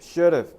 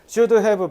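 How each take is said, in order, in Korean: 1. 두 단어가 붙어서 하나의 축약된 형태로 발음돼요. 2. 두 단어 모두 완전하고 따로따로 발음돼요. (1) "이렇게 하거든" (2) "이렇게 안 해"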